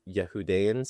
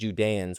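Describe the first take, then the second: First: The word begins with a Y sound. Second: The word begins with a J sound. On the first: "I think would be the right pronunciation" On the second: "I'm saying Judeans"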